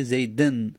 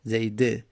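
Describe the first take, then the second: First: "زیدن" ending in -en; kasra tanwin. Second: "زیده" ending in an open short e; kasra, no tanwin. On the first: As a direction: say "زیدن" as zayden, sounding the final n. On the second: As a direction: say "زیده" as zayde, with no final n. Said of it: "کسر علامت جره". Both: Shown as a demonstration.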